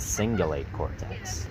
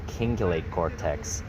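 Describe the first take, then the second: First: The word begins with a soft S sound. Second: The word begins with a hard K sound. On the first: The speaker calls it right. "with the C in front of the I, it'd make a S sound" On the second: The speaker calls it wrong. "It's not the cingulate cortex"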